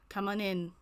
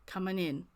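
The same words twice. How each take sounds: First: It is said in a high-pitched voice. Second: It is said in a lower voice.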